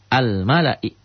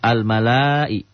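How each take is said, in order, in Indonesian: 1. Vokal setelah huruf L dibaca pendek. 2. Vokal setelah huruf L dibaca panjang. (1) "La-nya dibaca pendek" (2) "La-nya tidak dibaca panjang. Jadi bukan al-mala'i"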